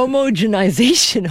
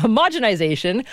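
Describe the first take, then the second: First: Homogenization said as "HOE-moe-jenization"; stumbled pronunciation. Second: Homogenization said as "huh-MOJ-enization"; corrected pronunciation. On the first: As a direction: say homogenization with long o's, "homo" then "genization". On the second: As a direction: say homogenization with a short stressed "MOJ". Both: Real, not acted. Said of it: "today is not my day".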